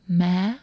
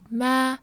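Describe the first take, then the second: First: The pitch goes higher at the end. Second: The pitch stays level throughout. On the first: "but higher tone at the end" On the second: "So it's like ma"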